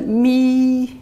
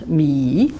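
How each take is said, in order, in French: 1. Le ton reste haut et plat. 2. Le ton descend bas, puis remonte. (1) "premier ton plat" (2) "Ça descend, ça remonte"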